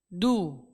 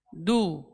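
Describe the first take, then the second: No difference in how they are said.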